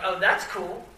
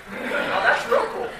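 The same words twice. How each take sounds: First: Said in the usual way. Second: Much higher and slow, "real" stretched up in laughing wonder; a goofy, dazzled "Oh, that's real cool." while gaping at the welder; mock awe. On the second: It's real cool to stare at a welder.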